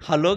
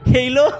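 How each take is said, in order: First: Hello is said in the plain local way. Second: Hello is said with a Gulf-influenced 'heyilo' sound. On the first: This is how people here normally say it. "మనకు వచ్చేటప్పటికి హలో హలో కదా" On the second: The speaker picked up the pronunciation abroad. "అక్కడున్న ఉచ్చారణ అలాంటిది"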